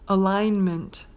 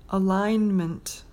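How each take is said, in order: Both takes have the same delivery.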